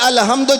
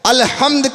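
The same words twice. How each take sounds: First: The h is a light, plain sound. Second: The h is a deep, throaty sound. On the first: The meaning is changed. The speaker calls it wrong. "छोटी हा से कह दिया" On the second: All praise belongs to God. The speaker calls it right. "अल्हम्द के बजाय"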